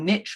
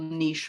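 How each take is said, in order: First: It is said with the American pronunciation. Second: It is said with the British pronunciation. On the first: "if you're in the U S" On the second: "since I'm a Brit"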